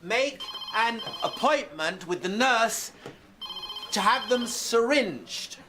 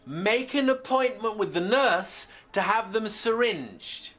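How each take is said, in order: First: High shout broken into slow chunks; slower shouted repeat. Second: High, slow shouted advice to a patient; shouted instruction. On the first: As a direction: shout each phrase separately for a patient who missed it. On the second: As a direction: shout it in one run, pitched well up. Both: Acted. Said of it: "sorry, was I shouting".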